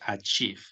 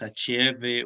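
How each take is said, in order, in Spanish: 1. No hay vocales extra; termina en un sonido parecido a la f. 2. Las e escritas se pronuncian como vocales extra. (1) "Y la V suena como una F. Entonces decimos achieve" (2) "Estas dos es no se pronuncia, o sea, no, no decimos achieve o algo así"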